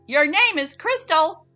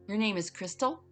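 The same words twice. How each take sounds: First: It is said loudly, rising high in pitch. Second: It is said softly, in a quieter voice.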